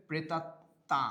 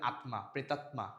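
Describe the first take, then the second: First: প্রেতাত্মা as "pretatta", m silent; Bengali pronunciation. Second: M fully sounded in আত্মা, প্রেতাত্মা, "atma, pretatma"; Sanskrit-style pronunciation. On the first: Teacher gives our own form, প্রেতাত্মা without m. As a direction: double the t in প্রেতাত্মা and nasalise the end. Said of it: "আমাদের উচ্চারণটা কি হবে?". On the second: Teacher shows how Hindus say it, প্রেতাত্মা with audible m. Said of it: "মফলার উচ্চারণটা কি রাখে? অবিকৃত রাখে". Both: Shown as a demonstration.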